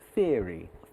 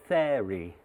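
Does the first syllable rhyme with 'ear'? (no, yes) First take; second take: yes; no. First: The first syllable rhymes with ear. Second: The first syllable does not rhyme with ear. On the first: The speaker calls it right. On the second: The speaker calls it wrong.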